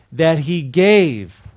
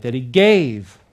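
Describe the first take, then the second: First: Drawn out, louder, for the echo; slow call-out. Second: Louder, punchy "That he gave"; with an exclamation point. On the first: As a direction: stretch each word for them to repeat. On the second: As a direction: hit it like it ends in an exclamation mark. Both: Shown as a demonstration. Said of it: "One more time with an exclamation point".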